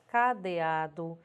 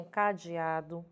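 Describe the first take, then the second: First: "cadeado" with a clear E after the D; careful spelling pronunciation. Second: "cadeado" said with I for E, "ca-di-a-do"; popular pronunciation. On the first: Teacher giving students the spelled form, carefully pronounced. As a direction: sound out the written E in "cadeado". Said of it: "porém é grafada com E". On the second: Teacher quoting how people say "cadeado", with an I. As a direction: turn the E of "cadeado" into an I glide. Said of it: "que as pessoas pronunciam". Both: Shown as a demonstration.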